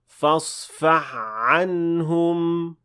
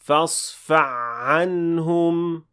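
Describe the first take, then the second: First: The ha merges into the following ayn sound. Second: The same.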